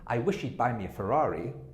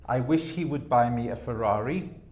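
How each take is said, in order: First: The words 'he would' are contracted to 'he'd'. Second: The words 'he would' are said in full.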